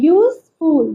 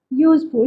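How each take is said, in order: First: "यूजफुल" broken in two, yooz and ful; teacher's syllable demo of "यूजफुल", a gap before ful; split into syllables. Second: Said in the usual way. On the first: Shown as a demonstration. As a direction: say "यूजफुल" as two separate beats. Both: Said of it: "इसमें देखिए syllable".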